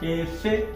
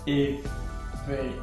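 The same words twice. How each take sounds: First: The final syllable has a high tone. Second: The final syllable has a low tone. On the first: It means to fly. "So E F E with high tone" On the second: It means cloth. "pronouncing it as efe, coming down, is actually low tone here"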